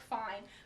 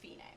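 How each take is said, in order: First: It is one syllable, rhyming with 'line'. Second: It is two syllables, sounding like 'fee-nay'. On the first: The speaker calls it wrong. "It looks like fine" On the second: The speaker calls it right. "with the Italian pronunciation, which is fine"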